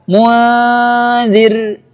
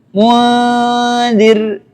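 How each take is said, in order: Both takes have the same delivery.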